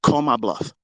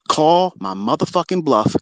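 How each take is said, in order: First: Said in the usual way. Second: "Call my motherfucking bluff" dragged out slowly, each word leaned on; slow, taunting dare thrown at rivals; slow emphatic challenge. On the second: Real, not acted.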